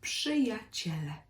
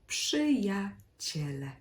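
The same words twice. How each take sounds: First: The word is said at normal speed. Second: The word is said slowly and carefully.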